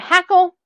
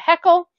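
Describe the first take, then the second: First: The first vowel sounds like the one in 'hat'. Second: The first vowel sounds like the one in 'het'. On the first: This is the speaker's own usual form. "I call it a hackle" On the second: This is the form other people use. "Other people can call it a heckle"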